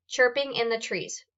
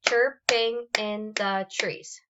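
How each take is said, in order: First: Said in the usual way. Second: "chirp-ing in the trees" slowly, one beat per syllable. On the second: Shown as a demonstration. Teacher clapping out syllables of "chirping in the trees" for students, slow and separated. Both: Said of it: "how many times am I clapping".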